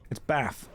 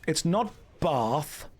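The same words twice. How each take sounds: First: "Bath" with a long broad ah, RP style; the southern "Bath" said as "Barth"; "Bath" with a long ah sound; posh Bath. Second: "Bath" with a short flat a, slowed; the Midlands "Bath" said slowly; "Bath" said the northern way; wrong Bath. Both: Shown as a demonstration. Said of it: "but you still say Bath".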